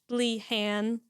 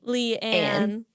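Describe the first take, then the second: First: The second part starts with an H sound. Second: The second part starts with no H sound. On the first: The speaker calls it wrong. "I've been kind of emphasizing the H" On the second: The speaker calls it right. "prettier than how I was saying it"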